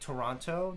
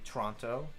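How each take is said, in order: First: The first syllable keeps its vowel: To-ron-to. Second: The first vowel drops, sounding like 'Tronto'. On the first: "instead of Toronto" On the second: "they say Toronto. So instead of T O R, it's T R O"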